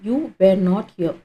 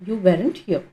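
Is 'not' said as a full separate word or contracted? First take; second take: separate; contracted. First: The word not is said fully and separately. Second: Were and not are joined into weren't.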